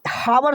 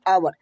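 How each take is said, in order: First: The word begins with an h sound. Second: The word begins directly with a vowel. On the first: This is how the spelling would suggest reading it. "हावर होना चाहिए" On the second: This is how the word is actually read. "लेकिन पढ़ते हैं आवर"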